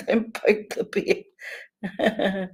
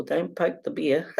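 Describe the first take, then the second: First: Very slow, drawn out, slightly higher; drawn-out teasing warning; slow mock warning. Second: Laughing through the warning; half-laughing warning. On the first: Shown as a demonstration. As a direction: stretch each word out as a playful warning. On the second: Retold or imitated. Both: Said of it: "I always say to people".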